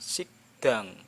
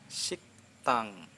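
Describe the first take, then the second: First: The consonant after k is soft, like a d. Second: The consonant after k is a crisp, clear t. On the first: The speaker calls it wrong. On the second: The speaker calls it right. "T jelas"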